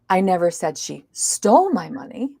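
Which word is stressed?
stole. The stress is on the word stole. She may have borrowed it instead. "maybe she borrowed it"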